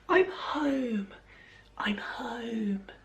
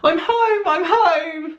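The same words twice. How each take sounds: First: It is said in a whisper. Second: It is said in a normal, unwhispered voice.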